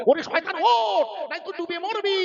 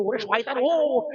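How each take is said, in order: First: Urgent call. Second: Said in the usual way. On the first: Retold or imitated. Father Nuh urgently calling his son aboard.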